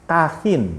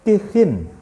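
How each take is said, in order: First: The first vowel is an 'a' sound. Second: The first vowel is an 'i' sound. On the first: "kafnya itu dibaca fathah" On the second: "boleh juga dibaca tanwin kha-nya"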